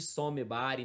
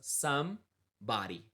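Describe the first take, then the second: First: An extra vowel sound follows 'some'. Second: It has no vowel sound after 'some'. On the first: The speaker calls it wrong. "Nada de somebody" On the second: The speaker calls it right. "olha a pronúncia"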